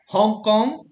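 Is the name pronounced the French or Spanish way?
Spanish. The name is pronounced the Spanish way.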